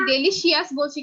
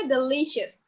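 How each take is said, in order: First: "ডেলিশিয়াস" spread out as de-li-shi-as; spelling pronunciation. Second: "ডেলিশিয়াস" as de-LI-shus, falling; correct pronunciation. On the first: Teacher asking if we say it wrong, spelling pronunciation. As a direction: say "ডেলিশিয়াস" with a separate I before AS. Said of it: "ডেলিশিয়াসটাকে কি আমরা ডেলিশিয়াস বলছি কিনা". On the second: Teacher answering her own question, pronounced properly. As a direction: say "ডেলিশিয়াস" with stretched LI and short ending. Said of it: "এটার pronunciation কি হবে". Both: Shown as a demonstration.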